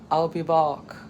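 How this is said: It is said imitating a heavy Austrian accent. "I don't do a very good Arnold"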